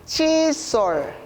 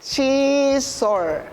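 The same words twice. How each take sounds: First: The word is said faster. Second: The word is said slowly.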